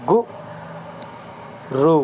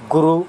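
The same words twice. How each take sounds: First: गु then रु, each said apart with a pause; split into syllables. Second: Said in the usual way. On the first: Shown as a demonstration. Teacher spelling out गुरु for pupils, syllable by syllable. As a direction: break गुरु into गु and रु for the class.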